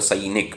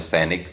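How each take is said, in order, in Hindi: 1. पहला स्वर अ से इ की ओर सरकता है। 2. पहला स्वर एक स्थिर स्वर-ध्वनि है। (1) "संस्कृत में हो जाएगा सैनिक, ऐ हो जाएगा" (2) "जैसे हम हिंदी में बोलते हैं"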